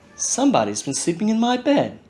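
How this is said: It is said in a quiet, gentle voice.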